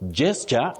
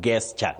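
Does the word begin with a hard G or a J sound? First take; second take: J sound; hard G. First: The word begins with a J sound. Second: The word begins with a hard G sound. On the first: The speaker calls it right. "the sound is J. So you say gesture" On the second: The speaker calls it wrong. "many people innocently mispronounce as gesture"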